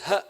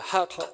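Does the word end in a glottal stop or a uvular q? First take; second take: glottal stop; uvular q. First: The word ends with a glottal stop instead. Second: The word ends with a deep uvular q sound. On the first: The speaker calls it wrong. "pronounces the uh, word truth with a glottal stop" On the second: The speaker calls it right. "one must pronounce the qaf"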